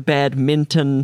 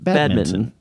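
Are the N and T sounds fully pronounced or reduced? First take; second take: full; reduced. First: The N and T sounds are fully pronounced. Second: The N and T sounds are reduced.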